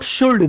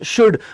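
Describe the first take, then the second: First: The L sound is pronounced in the word. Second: The L sound is silent in the word. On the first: The speaker calls it wrong. "एल नहीं पढ़ेंगे, इसे शुल्ड मत पढ़ना, अपराध हो जाएगा" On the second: The speaker calls it right. "This is शुड"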